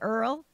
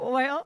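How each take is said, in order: First: The vowel sounds like 'er' instead of 'oy'. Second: The vowel is a plain 'oy' sound. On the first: "how they would say Earl" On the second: "instead of oil"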